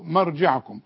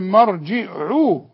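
First: The word ends with the full kum. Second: The word ends without the final kum. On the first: The speaker calls it right. "التشكيل مهم جدا جدا" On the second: The speaker calls it wrong. "يعني ثم إليه مرجعو، مش مرجعكم"

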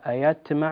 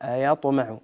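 First: The t sound is emphatic. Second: The t sound is plain. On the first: The speaker calls it right. "أيطمع بالطاء وليس بالتاء" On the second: The speaker calls it wrong. "وليس بالتاء"

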